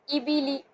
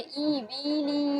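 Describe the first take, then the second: First: ई बी ली kept short; short reading. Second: ई बी ली drawn out very long; wrong stretched reading. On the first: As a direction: say ई बी ली quickly without stretching. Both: Shown as a demonstration. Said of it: "ये नहीं कि हम इसको खींचेंगे".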